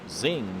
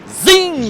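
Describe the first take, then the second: First: It is said flatly, without much energy. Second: It is said with lively enthusiasm.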